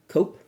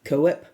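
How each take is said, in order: First: "Koepp" said as one syllable, KOHP; "Koepp" with a silent e, like "cope"; one-syllable pronunciation. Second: "Koepp" said as KOH-ep, questioning; "Koepp" with the second vowel sounded, like "co-ep"; two-syllable pronunciation. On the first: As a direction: say "Koepp" to rhyme with "hope". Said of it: "I think it's Koepp". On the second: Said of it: "I think that's how you pronounce his name". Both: Shown as a demonstration.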